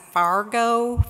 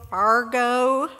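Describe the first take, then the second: First: Said in the usual way. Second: Lightly put-on Minnesota vowel in Fargo, ending on a rise; a playful stab at a Minnesota Fargo; hint of a Minnesota accent, just for the joke; mock Minnesota accent. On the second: Shown as a demonstration. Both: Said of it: "I'll try to say this in my best accent".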